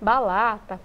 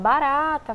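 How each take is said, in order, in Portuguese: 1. A consoante do meio é um som de L. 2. A consoante do meio é um som de R. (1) "Tem muita criança que ainda fala, né? Como cebolinha" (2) "mostra sempre o adequado"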